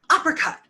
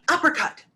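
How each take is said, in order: Both takes have the same delivery.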